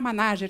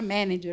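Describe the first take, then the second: First: The word is read with Portuguese sounds. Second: The word is said with English sounds. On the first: The speaker calls it wrong. "não era Manager" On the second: The speaker calls it right. "que era Manager"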